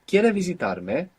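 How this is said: The voice rises at the end. It is a question.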